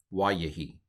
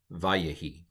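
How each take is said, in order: First: "wayehi" begun with a W sound; old pronunciation. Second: "vayehi" begun with a V sound; modern pronunciation. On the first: Teacher gives the older form, "wayehi" with W. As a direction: say "wayehi" with W as in wide. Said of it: "go with the old pronunciation". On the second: Teacher models the word for Hebrew students, "vayehi" with V. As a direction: say "vayehi" with V as in van. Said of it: "if you want to go with the old pronunciation". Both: Shown as a demonstration.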